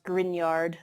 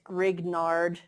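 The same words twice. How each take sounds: First: "Grignard" as GRIN-YARD, gn like in lasagna; correct French-derived pronunciation. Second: "Grignard" sounded out as written, GRIG-NARD, hard g before n; spelling pronunciation. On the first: Lecturer teaching chemistry class the name, "Grignard" pronounced correctly as grin-YARD. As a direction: say "Grignard" with a silent g and a ny glide. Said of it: "it's pronounced Grignard, like that G N combo, like in lasagna". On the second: Lecturer showing chemistry class how it's spelled, "Grignard" read literally as GRIG-nard. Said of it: "it's spelled Grignard".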